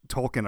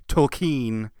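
First: Said in the usual way. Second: Tolkien said as "tol-KEEN"; mispronounced Tolkien. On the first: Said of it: "but they s-, pronounced it Tolkien". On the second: Retold or imitated. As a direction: stretch the end of Tolkien into a long "keen". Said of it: "they s-, pronounced it".

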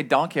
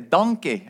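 First: Said in the usual way. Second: "donkey" said as in Shrek, like "DON-kay"; Shrek-style donkey. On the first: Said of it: "I say donkey". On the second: Shown as a demonstration. Preacher jokes about watching Shrek too often, Shrek-style "donkey". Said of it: "I've watched Shrek too many times".

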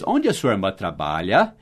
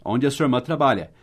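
First: "Onde" peaks, then low until "trabalha" rises; English question intonation in Portuguese. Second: Said in the usual way. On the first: Shown as a demonstration. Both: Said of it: "Tá vendo a entonação em inglês?".

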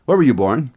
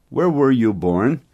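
First: Said in the usual way. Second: Slow. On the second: Shown as a demonstration. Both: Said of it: "teacher repeats the question".

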